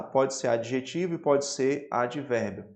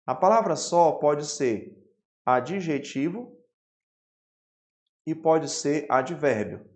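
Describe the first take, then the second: First: Said in the usual way. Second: Slow, spaced-out dictation pace; teacher dictating the rule word by word. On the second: Shown as a demonstration. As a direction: spell it out slowly for note-taking. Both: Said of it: "Anote aí, por gentileza".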